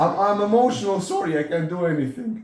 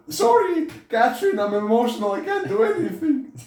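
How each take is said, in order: First: Higher, louder whiny mock voice; pleading mock whimper, pitched up; mock helpless whiner. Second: Very high falsetto, louder, laughing at the end; shrieking parody of a man apologising to his wife; squeaky mock whine. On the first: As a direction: play the useless emotional guy for laughs. Mocking a helpless emotional man. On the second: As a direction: overdo the helpless guy into a squeal. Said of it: "I'm scared".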